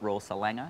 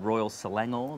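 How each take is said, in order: First: The last syllable of Selangor is reduced. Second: The last syllable of Selangor is full. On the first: The speaker calls it wrong. "not Royal Selanger, as I said, I think the first show" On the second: The speaker calls it right. "putting the right emphasis on the right syllable"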